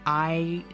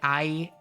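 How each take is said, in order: First: The vowel sounds warm, open and resonant. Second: The vowel sounds harsh, sharp and forward. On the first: "that's like a much warmer kind of I sound" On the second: "that's like harsher"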